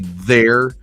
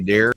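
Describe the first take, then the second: First: The word begins with a soft th sound. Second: The word begins with a hard d sound. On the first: This is not how the speaker usually says it. "I don't say there" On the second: This is the speaker's own northern way of talking. "I say dare sometimes"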